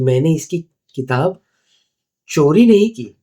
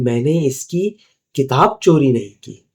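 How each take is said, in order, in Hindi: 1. ज़ोर चोरी शब्द पर है। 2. ज़ोर किताब शब्द पर है। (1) "मतलब मैंने शायद इससे भाड़े पे ली है या बोरो की है या खरीदी है" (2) "मतलब मैंने कोई दूसरी चीज़ चोरी की है।"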